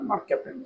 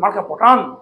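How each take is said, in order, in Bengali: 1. শব্দটি mark-এর পরে ভাগ হয়, তারপর captan। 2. শব্দটি marka-এর পরে ভাগ হয়, তারপর patan।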